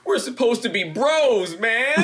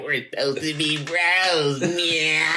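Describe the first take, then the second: First: Higher, slow tearful whine; crying plea. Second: Whitest guy. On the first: To his brother after the injury, tearful high plea. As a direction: plead like a hurt kid. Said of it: "I was sitting there crying". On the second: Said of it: "like the whitest guy". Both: Retold or imitated.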